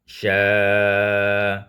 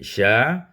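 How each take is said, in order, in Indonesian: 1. Vokalnya dibaca dengan panjang sedang. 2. Vokalnya dibaca pendek. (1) "dibaca juga dengan tawassud" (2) "ma'al qasar, dengan qasar"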